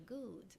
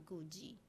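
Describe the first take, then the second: First: The final D is not released. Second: The final D is clearly released. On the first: The speaker calls it right. "Esquece esse D, fala good" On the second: The speaker calls it wrong. "Você não vai falar good"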